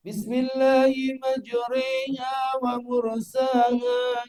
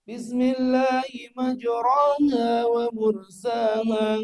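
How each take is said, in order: First: "majriha" tilted toward majre, the a leaning to e; slow, high chant with "majriha" bent toward e; imala. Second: "majraha" with a clear a, no tilting; slow chant with "majraha" said as written; plain reading. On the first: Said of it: "Gitu bacanya majre". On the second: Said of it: "Itu bacaannya benar tapi salah". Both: Shown as a demonstration.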